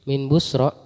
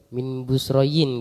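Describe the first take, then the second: First: The name ends in a long open a-sound. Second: The name ends with an added -in sound. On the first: The speaker calls it right. "Bacanya fathah" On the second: The speaker calls it wrong. "Kenapa enggak min Busroyin?"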